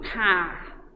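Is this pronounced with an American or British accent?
British. The final r is almost silent. "o britânico car. O R nem aparece quase na pronúncia"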